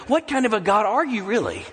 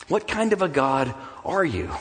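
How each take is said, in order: First: "What kind of a God are you really?" higher, pleading, falling at the end; pleading challenge. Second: Said in the usual way. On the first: Acted. A desperate believer challenging God, "What kind of a God are you really?" higher and pleading. Climax of the voiced lament.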